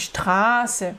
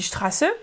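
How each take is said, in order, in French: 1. La première voyelle est allongée. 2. La première voyelle est courte. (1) "mais c'est dit ... on allonge le A" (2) "C'est pas dit"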